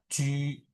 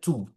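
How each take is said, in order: First: The vowel is a rounded ü sound. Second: The vowel is a plain u sound. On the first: The speaker calls it right. "Pasti otomatis langsung U-nya titik dua" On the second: The speaker calls it wrong. "nggak nggak ada kalian bilang J U tuh bacanya cu. Tidak ada"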